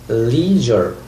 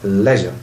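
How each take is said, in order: First: It is said with an American accent. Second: It is said with a British accent. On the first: "the American people pronounce this word like leisure" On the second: "the British people say البريطانيين بينطقوها leisure"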